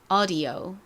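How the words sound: American accent, first vowel an open 'ah'. "이번엔 미국식"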